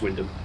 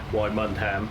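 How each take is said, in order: First: It is said in two syllables, wind-ham. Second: It is said in three syllables, why-mund-ham. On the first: The speaker calls it right. "it's just Wyndham" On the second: The speaker calls it wrong. "which it isn't"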